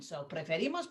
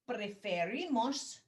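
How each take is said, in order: First: Said in the usual way. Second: Preferimos slow, every syllable spaced out; slow model for repeating. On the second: Shown as a demonstration. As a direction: say preferimos slowly for the class to repeat. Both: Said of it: "repiten por favor".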